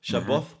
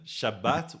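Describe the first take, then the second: First: The word ends with a soft th sound. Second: The word ends with a sharp t sound. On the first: This is the Yemenite pronunciation. "Shabboth would be Yemen" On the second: This is the Mizrahi, North African pronunciation. "Shabbat would be say um, Mizrahi, um, North African"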